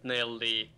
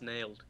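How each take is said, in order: First: The word is split into two syllables. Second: The word is said as one syllable. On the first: The speaker calls it wrong. "It's not nail D" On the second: The speaker calls it right. "It's nailed"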